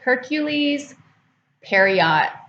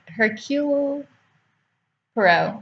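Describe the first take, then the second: First: The first name ends with an s sound. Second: The first name ends without an s sound. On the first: The speaker calls it wrong. "I used to call him Hercule, Hercules Periot or something like that" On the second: The speaker calls it right. "But it's Hercule Poirot"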